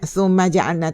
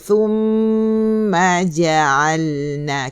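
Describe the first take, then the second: First: The m is clipped short without a nasal hum. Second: The m is held long with a nasal hum. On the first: The speaker calls it wrong. "Tak nak gitu" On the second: The speaker calls it right. "Kena thumma ja'alna"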